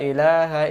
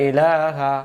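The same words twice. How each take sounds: The two takes are said the same way.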